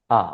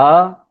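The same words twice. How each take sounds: First: आ held long and steady; sustained, drawn-out आ; long vowel. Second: आ said short and firm; quick, emphatic short आ; short vowel. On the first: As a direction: stretch आ out over a longer beat. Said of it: "दीर्घ स्वर". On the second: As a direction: cut आ to a single brief beat. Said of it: "ह्रस्व स्वर". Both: Shown as a demonstration.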